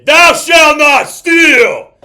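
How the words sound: It is said firmly, as an order. It is a command that must be obeyed. The speaker calls it right. "because that is a command"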